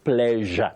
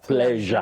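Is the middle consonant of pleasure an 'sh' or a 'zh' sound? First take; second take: zh; zh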